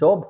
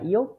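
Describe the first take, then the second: First: The word begins with an English-like j sound. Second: The word begins with a y sound. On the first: The word keeps its English pronunciation. "কিছু জিনিস আছে যেটা ওরা ইংরেজির মতোই উচ্চারণ করে থাকে" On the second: This is the pronunciation the spelling rule would predict. "এখানে এটা ইয়ব হওয়ার কথা ছিল"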